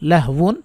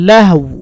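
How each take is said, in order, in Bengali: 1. শব্দটি পূর্ণ নাসিক্য 'wan' দিয়ে শেষ হয়। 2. শব্দটি গোলাকার 'u' ধ্বনি দিয়ে শেষ হয়।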